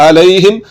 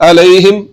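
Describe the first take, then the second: No difference in how they are said.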